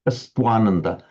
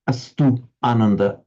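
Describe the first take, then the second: First: The u becomes a w gliding into ananda. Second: The u stays a full vowel before ananda.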